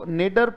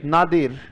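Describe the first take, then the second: First: The first vowel sounds like 'ay'. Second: The first vowel sounds like 'ah'. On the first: "या तो इसे बोल दो नेडर" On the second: "पर सही उच्चारण इसका है, बोलो नादिर"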